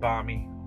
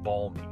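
First: The L sound is silent. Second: The L sound is strongly pronounced. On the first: The speaker calls it wrong. "Not balmy" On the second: The speaker calls it right. "With a fucking, like, three L's"

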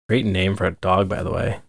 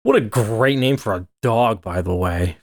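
First: It sounds plain, with little sarcasm. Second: It sounds heavily sarcastic.

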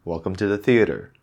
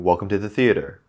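First: Theater ends with a clear R sound. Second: The same.

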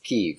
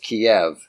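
First: The name is given its Ukrainian pronunciation. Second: The name is given its Russian pronunciation. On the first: "the Ukrainian pronunciation is Kyiv" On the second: "The Russian pronunciation is Kiev"

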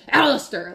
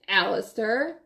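First: It is said as a sharp exclamation. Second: It is said as a quiet warning.

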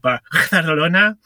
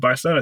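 First: It is said with an exaggerated Spanish-style pronunciation. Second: It is said with a plain English pronunciation. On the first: The speaker calls it wrong. "sorry, it's actually" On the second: The speaker calls it right. "you say"

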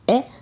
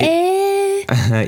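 First: It is said less dramatically, like men say it. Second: It is said dramatically, like girls say it.

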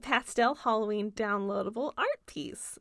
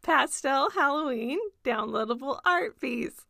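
First: It is said quickly. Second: It is said slowly.

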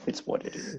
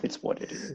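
First: The words 'it is' are contracted to 'it's'. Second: The words 'it is' are contracted to 'it's'.

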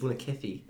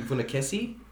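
First: The final syllable has a lisped th sound. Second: The final syllable has a plain s sound.

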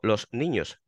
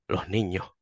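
First: The s is fully pronounced, standard northern style. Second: The s is softened, Andalusian style.

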